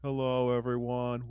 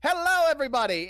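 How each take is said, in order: First: It is said flatly with little energy. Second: It is said with lively showman energy.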